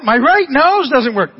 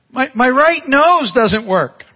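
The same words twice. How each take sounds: First: Put-on teary little boy voice, slow and louder; crying child. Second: Mock teary little boy voice, slow; crying child. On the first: Grandson repeating his complaint to grandpa, teary. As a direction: repeat it like an upset small boy. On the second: Grandpa imitating his crying grandson at night, teary.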